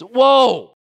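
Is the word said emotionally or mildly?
emotionally. The word is said with strong, urgent emotion. The speaker calls it right. "another way to set with emotion"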